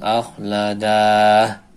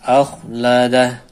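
First: The vowel before the final h is drawn out long. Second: The vowel before the final h is kept short. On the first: The speaker calls it wrong. "dibaca panjang" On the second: The speaker calls it right. "Harusnya dibaca pendek"

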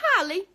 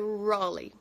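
First: The name is read with Portuguese letter sounds. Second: The name is said with English sounds. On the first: The speaker calls it wrong. "que era o que tava escrito no papel" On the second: The speaker calls it right. "Só que não é assim que pronuncia, é Raleigh"

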